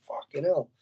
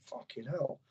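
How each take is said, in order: First: Said in the usual way. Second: Hushed, half-breathed fucking hell; a quiet stunned swear; awed under breath. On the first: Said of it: "I thought". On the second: Retold or imitated. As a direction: let it slip out under your breath in awe. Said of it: "and I was like".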